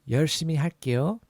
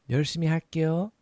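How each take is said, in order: The two takes are said the same way.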